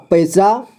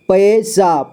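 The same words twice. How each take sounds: First: Said in the usual way. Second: पैसा split as पै, सा; syllable by syllable. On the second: Shown as a demonstration. Teacher showing learners पैसा, sounded out in parts. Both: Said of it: "इसे पढ़ेंगे".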